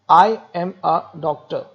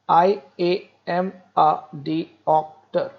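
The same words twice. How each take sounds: First: It is said in a normal, varied voice. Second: It is said in separated, evenly stressed syllables.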